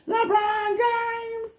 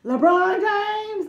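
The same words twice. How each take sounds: First: Very high, slow, sung-out name; sung meme call. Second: High, slow, drawn-out hype shout; meme shout. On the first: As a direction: sing the name like the gif. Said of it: "I don't know where that gif is from". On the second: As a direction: yell the name like the meme gif. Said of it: "Every time I say his name, that comes in my head". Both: Retold or imitated.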